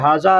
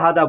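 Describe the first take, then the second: First: The middle consonant is a z-like sound. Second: The middle consonant is a d sound. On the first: This is how the word is written. "लिखावट में हाजा आता है" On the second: This is how people actually say it. "लेकिन लोग हादा हादा बोलते हैं"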